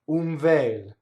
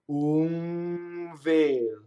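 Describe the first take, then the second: First: It is said at normal speed. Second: It is said slowly, in slow motion.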